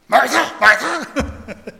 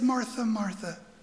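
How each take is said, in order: First: It is said in a harsh, scolding tone. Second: It is said in a tender, gentle tone.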